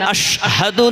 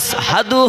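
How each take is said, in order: First: The word is said with an 'sh' sound. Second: The word is said with an 's' sound. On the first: "বড় শিন হয় না, আশহাদু না হয়ে" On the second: "আসহাদু হয়, কারণ মোটা আছে"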